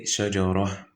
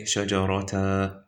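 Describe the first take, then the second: First: "shajara" ending in a breathed h; correct stop. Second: "shajarata" ending in an open -ta; wrong stop. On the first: Teacher answering how to stop, final ha sounded. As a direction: finish "shajara" on an audible h, no t. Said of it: "We're gonna say shajara". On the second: Teacher offering a wrong way to stop, t sounded. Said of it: "Or are we gonna say shajarata?". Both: Shown as a demonstration.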